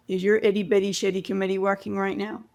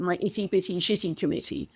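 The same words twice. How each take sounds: First: Quick, light imitation of a Canadian accent; friend's question in a loose Canadian accent. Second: Crisp, carefully enunciated British accent; the phrase enunciated in a British accent. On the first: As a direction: toss off the line in a mock Canadian accent. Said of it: "Forgive the Canadian accent". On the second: Shown as a demonstration. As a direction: sound out each word in a British accent. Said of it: "said and enunciated with a British accent".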